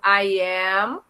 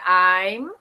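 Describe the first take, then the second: First: Two separate words, two full syllables. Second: Contracted into a single short syllable.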